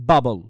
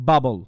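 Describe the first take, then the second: The two takes are said the same way.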